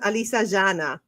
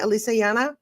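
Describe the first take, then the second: First: The name is said with an Argentinian Spanish accent. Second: The name is said in a plain, neutral way. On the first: "I'm giving it a Latin twist ... That that would be your Argentinian name" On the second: "am I pronouncing your name correctly"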